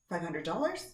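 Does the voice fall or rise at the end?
rise. The pitch rises at the end like a question. It sounds like a question, not a statement. The speaker calls it wrong.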